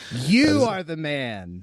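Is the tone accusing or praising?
accusing. It sounds like an indignant, fiery accusation. The listener is the guilty one. The speaker calls it right. "No, not like that"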